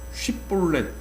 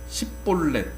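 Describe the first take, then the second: First: The word begins with an sh sound. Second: The word begins with an s sound. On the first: The speaker is not an Ephraimite. The speaker calls it right. "쉿볼렛 이렇게 발음하지 못하고" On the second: The speaker is an Ephraimite. The speaker calls it wrong. "십볼렛 이렇게 발음을 해요"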